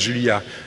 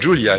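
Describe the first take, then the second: First: The name is said with French-style sounds. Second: The name is said with English-style sounds. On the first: The speaker calls it right. "it's Julia" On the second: The speaker calls it wrong. "it's not Julia"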